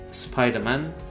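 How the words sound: It is said with an English accent. This is the original name. The speaker calls it right.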